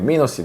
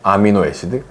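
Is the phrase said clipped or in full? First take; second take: clipped; full. First: The opening and middle vowels are dropped. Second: Every syllable of the phrase is pronounced. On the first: "발음을 아가 없고 미노 애시드인데 애시드 시드만 발음했대" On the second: "근데 아미노 애시드거든요"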